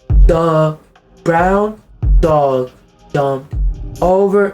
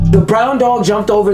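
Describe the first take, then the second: First: The words are read slowly and haltingly. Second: The words are read smoothly at normal pace. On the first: The reader struggles to read. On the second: The reader can read fluently.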